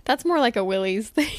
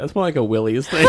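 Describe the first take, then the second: First: Said in the usual way. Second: Higher, louder mimicry while laughing; imitating her. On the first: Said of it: "It was just funny the way you said it". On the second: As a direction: copy her line, laughing. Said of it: "the way you said it".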